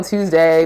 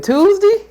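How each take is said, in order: First: Said in the usual way. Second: "Tuesday" as "Tuesdi", much higher; radio host accent. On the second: Retold or imitated. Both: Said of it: "real accent we got here".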